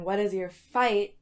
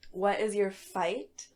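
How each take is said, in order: First: Louder, FIGHT stressed and falling; emphatic repeat. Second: Slow, FIGHT rising at the end; posing a question. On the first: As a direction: repeat it firmly, landing hard on "fight". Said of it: "I'll say that again". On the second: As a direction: draw out "what is your fight", lifting on "fight". Poses the day's question slowly. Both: Real, not acted.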